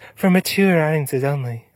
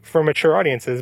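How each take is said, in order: First: It is said imitating the Hulu announcer voice. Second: It is said in a normal voice.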